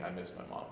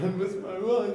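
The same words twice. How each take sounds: First: Soft, choked, much quieter; retold crying. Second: High, loud hammed-up crying wail; mock sobbing wail. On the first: Alone on the living room floor, quiet teary whimper. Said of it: "just laying there crying". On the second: Crying to his wife on the phone, hammed-up wail. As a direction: blubber it like a kid, over the top. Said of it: "and I was just crying".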